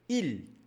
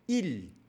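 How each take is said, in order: Both takes have the same delivery.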